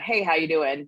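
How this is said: It is a quick, casual passing greeting.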